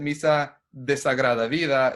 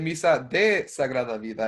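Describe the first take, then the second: First: De and sagrada run together as one word. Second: De and sagrada are kept as separate words. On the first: An unfortunate or unholy life. "when you say it fast" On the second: A mass of sacred life. "it's mass of sacred life"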